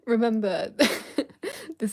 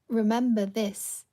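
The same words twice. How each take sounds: First: There is a pause after 'remember'. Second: The words run together without a pause. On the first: The speaker calls it right. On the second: The speaker calls it wrong.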